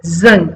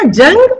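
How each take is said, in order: First: जंग with a z: "zang"; nukta pronunciation. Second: Said in the usual way. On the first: Shown as a demonstration. Teacher contrasting two words, जंग said with a z. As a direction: start जंग on a buzzing z, pitched lower. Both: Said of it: "वो जंग है".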